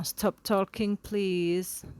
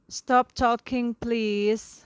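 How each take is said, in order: First: Said in the usual way. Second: Loud, slow call to stop the chatter; teacher hushing class. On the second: Shown as a demonstration. Teacher to chattering students, loud firm call. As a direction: call out firmly over the noise, louder and slower.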